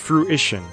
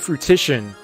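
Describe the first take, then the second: First: The word has no extra sound added. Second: The word has an extra sound added in. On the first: The speaker calls it right. "when it says fruition" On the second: The speaker calls it wrong. "So I've been saying fruition, adding in another syllable"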